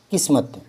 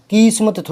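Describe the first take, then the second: First: किस्मत with a short, unstressed ki; softer किस्मत, first vowel kept short; correct short vowel. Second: किस्मत with a stretched kee at the start; mock mispronounced किस्मत, "kees-mat"; wrong long vowel. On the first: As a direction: pass quickly over the i in किस्मत. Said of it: "की पर जोर पड़ेगा ही नहीं". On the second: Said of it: "मात्रा बड़ी करोगे". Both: Shown as a demonstration.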